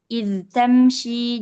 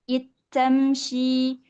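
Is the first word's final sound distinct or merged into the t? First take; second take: distinct; merged. First: The dh sound is pronounced clearly before t. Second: The dh sound is assimilated into the t. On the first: This is the reading of one reciter tradition. "dibaca dengan jelas" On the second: This is the reading of some other reciters. "membaca dengan mengidghamkannya"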